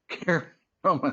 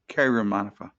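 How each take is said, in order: First: The surname ends without a final vowel sound. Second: The surname ends with an 'a' vowel sound. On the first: The speaker calls it right. "The A at the end is silent" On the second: The speaker calls it wrong. "Did I say that right?"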